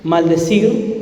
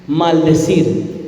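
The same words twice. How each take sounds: First: Said in the usual way. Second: "Maldecir" despacio y con tono que cae; maldecir lento y grave. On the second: Shown as a demonstration. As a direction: repite "Maldecir" pausado, cayendo al final. (di "Maldecir" lento, bajando el tono)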